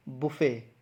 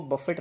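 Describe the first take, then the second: First: बुफे with silent t, "bu-fay"; correct pronunciation. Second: बफेट with the t sounded, "buh-fet"; wrong pronunciation. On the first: Teacher models the right form, correct pronunciation. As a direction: end बुफे on an open "ay", falling. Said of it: "इसकी सही pronunciation है". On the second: Teacher rejects the common mistake, wrong pronunciation. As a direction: finish बफेट on a t. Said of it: "इसको बफेट नहीं". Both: Shown as a demonstration.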